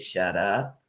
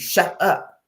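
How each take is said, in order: First: It is said in a calm, even way. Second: It is said in a sharp, urgent way. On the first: "you're going to take it one way" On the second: "it draws an urgency"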